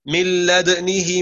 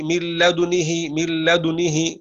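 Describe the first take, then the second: First: لدنه with the دال stilled first, lips rounded only after it; delayed ishmam. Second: لدنه with lips rounding on the دال itself, a faint u colour; simultaneous ishmam. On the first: Teacher demonstrates delayed ishmam in لدنه. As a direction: say لدنه slowly, sukun on the دال then silent lip rounding. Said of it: "أي نسكن أولًا ثم نأتي بالإشمام بعيد". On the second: Teacher demonstrates simultaneous ishmam in لدنه. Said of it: "أو مقارن من لدنه". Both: Shown as a demonstration.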